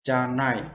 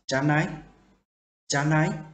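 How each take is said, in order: First: "Janai." said as a flat statement, pitch falling at the end; "Janai." ending on a falling tune, as a statement; wrong falling intonation. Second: "Janai" said twice as a question, pitch climbing at the end; "Janai" with a clear questioning rise on the last syllable; rising question intonation. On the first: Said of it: "No, we don't say this". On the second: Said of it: "this mean question mark". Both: Shown as a demonstration.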